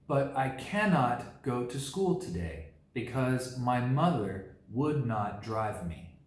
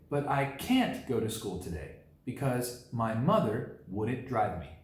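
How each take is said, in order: First: The negatives are said as full separate words. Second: The negatives are said as short contractions. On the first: "just to show you how uh, a sentence can be shortened by the use of a few contractions" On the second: "You can shorten this sentence a little bit by saying"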